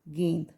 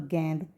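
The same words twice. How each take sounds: First: गेंद with a close long 'e', "gend"; correct vowel. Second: गेंद said with an open 'ai' vowel, like "gaind"; mispronounced vowel. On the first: Shown as a demonstration. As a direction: keep the e of गेंद narrow, as in "gend". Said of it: "तो हम कैसे पढ़ेंगे". (गेंद को बंद 'ए' से "गेंद" बोलें) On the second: Retold or imitated. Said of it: "तो ये शब्द गलत है". (गेंद को खुले 'ऐ' से "गैंद" बोलें)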